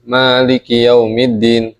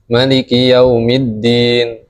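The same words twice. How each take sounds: First: The first vowel of Maliki is long. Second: The first vowel of Maliki is short. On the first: This is the commonly used reading. "Ini yang biasa kita pakai" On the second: This is an alternative permitted reading. "dengan pendek"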